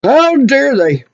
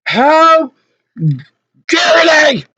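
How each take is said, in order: First: Slow, simmering reproach; indignant. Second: High, broken-up indignant shout; outraged. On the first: Customer fuming over being ganged up on, indignant. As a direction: draw it out, affronted. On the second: Customer fuming over being threatened, outraged. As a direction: cry it out with a pause after the first word. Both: Real, not acted.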